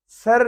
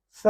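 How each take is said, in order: First: सर higher, with R pronounced; sounded R, mistaken. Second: स for "sir" with no R; silent R. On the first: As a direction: end सर on a clear R. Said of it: "सर नहीं बोलेंगे". (सर में आर की आवाज़ के साथ) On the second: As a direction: say स, ending on the open vowel. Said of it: "सर नहीं". (स, आर के बिना) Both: Shown as a demonstration.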